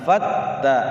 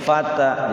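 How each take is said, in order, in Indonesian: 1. Bunyi t-nya ditahan dan didobelkan. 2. Bunyi t-nya pendek dan tunggal. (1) "Tasydid itu ditekan dulu" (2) "Jangan fata"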